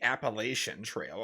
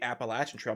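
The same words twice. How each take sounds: First: Appalachian is pronounced a non-local, outsider way. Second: Appalachian is pronounced the Southeastern local way. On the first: The speaker is an outsider to the region. The speaker calls it wrong. "not the Appalachian Trail" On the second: The speaker is a local of the Southeast. The speaker calls it right. "well-educated person of the Southeast because I call it the Appalachian Trail"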